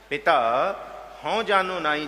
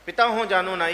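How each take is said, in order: First: There is a short pause after ਪਿਤਾ. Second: It is said together without a pause.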